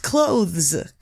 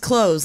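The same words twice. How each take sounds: First: It is said with a clear th sound. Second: It sounds like close, with no th sound. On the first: The speaker calls it right. "But it's clothes" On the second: The speaker calls it wrong. "what you're saying is clothes, like close the door"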